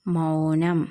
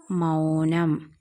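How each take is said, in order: First: Said in the usual way. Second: Drawn-out, syllable by syllable, x0.4; slow blending. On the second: Shown as a demonstration. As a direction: stretch മൗനം slowly as മൗ-നം for learners. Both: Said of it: "മൗ എന്ന് വായിക്കും".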